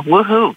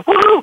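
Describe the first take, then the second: First: Said in the usual way. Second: Mock cheer. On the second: Shown as a demonstration.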